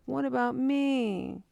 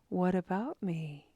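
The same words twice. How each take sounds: First: It sounds self-focused and complaining. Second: It sounds light and gently curious. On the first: The speaker is worried about being left out. "initially it sounds like" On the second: The speaker is openly noticing their own focus. "And just shifting that tone"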